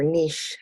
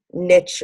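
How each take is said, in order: First: "niche" said as "neesh", rhyming with leash; alternative pronunciation. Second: "niche" said as "nitch", rhyming with rich; alternative pronunciation. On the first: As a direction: say "niche" with a long ee and a soft sh. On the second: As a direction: say "niche" with a short i and a final tch. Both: Shown as a demonstration. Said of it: "however you pronounce it".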